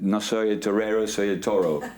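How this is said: It is said with an American English accent. The speaker calls it wrong. "suena saturista norteamericano"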